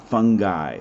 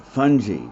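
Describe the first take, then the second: First: Fungi said FUN-guy with a hard g. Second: Fungi said FUN-jee with a soft g. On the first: Teacher mocking the common mistake, saying fungi as FUN-guy. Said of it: "Fungi is somebody you invite to a party". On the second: Teacher giving students the right way to say fungi. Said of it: "the way we really want to say that". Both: Shown as a demonstration.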